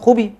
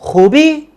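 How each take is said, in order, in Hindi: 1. यह सपाट लहजे में कहा गया है, बयान की तरह। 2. यह सवालिया लहजे में कहा गया है। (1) "तो मीन्स इट्स ऑल गुड" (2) "एक्सेंट में कह रहा हूँ खूबी तो आप देखिए वो क्वेश्चनिंग में तब्दील हो गया"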